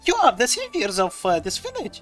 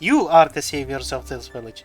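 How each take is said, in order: First: It is said in a surprised tone. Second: It is said in a thankful tone. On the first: The speaker is meeting them for the first time. The speaker calls it wrong. "she said it as if she was surprised" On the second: The speaker is grateful for what they did. The speaker calls it right. "it should have been her thanking us"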